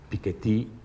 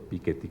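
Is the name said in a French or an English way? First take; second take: French; English. First: The name is said with a French pronunciation. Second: The name is said with an English pronunciation. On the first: "si lo pronunciamos como lo pronuncia él como francés" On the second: "como le suelen decir los anglosajones"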